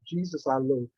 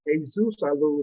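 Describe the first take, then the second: First: The name is pronounced with English sounds. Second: The name is pronounced with Spanish sounds. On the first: The speaker calls it wrong. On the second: The speaker calls it right. "maybe that's how you say it in Spanish"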